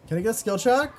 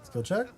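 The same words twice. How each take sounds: First: "skill check" yelled high and loud; pleading yell. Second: Said in the usual way. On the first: Real, not acted. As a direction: beg louder for it. Repeats louder, pleading.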